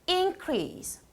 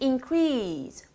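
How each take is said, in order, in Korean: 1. 강세는 첫 음절에 있어요. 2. 강세는 두 번째 음절에 있어요. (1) "명사는" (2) "동사는"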